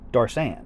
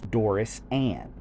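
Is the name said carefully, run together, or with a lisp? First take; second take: run together; carefully. First: The name is run together into two quick syllables. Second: Each part of the name is said clearly and separately. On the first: "Everybody pretty much pronounces it Darsan" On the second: "I'm over pronouncing the Doris for your sake"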